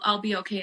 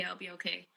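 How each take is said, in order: First: Said in the usual way. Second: Much softer, trailing off; fading repeat. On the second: Retold or imitated. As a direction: let the repeat drop to almost nothing. Repeating it to herself.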